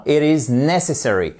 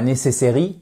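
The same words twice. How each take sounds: First: Necessary with the stress on the first syllable. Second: Necessary stressed on the end, the wrong way. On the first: Teacher models correct stress on necessary. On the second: Teacher demos the wrong stress of necessary. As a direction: model the mistake: necessary without first-syllable stress. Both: Shown as a demonstration. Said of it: "accentuation sur la première syllabe".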